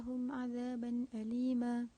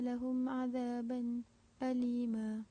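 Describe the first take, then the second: First: Lahum ends on a closed m, no added vowel. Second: A brief silent break comes before alima. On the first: "qalun dengan iskan min jamak pada kalimah lahum" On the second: "khalaf saktah pada azaban alima"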